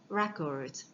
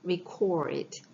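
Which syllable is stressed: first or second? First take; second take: first; second. First: The stress is on the first syllable. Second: The stress is on the second syllable. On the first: It is the noun. "만약에 명사면 record" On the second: It is the verb, meaning to write down. "동사면 발음을 어떻게 하죠? record. 오의 강세 있어요"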